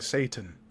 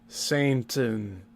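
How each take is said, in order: First: The first syllable sounds like 'say'. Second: The first syllable sounds like 'saint'. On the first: The speaker calls it right. "He's not saying Satan" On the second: The speaker calls it wrong. "He's continually mispronouncing Satan as Saint"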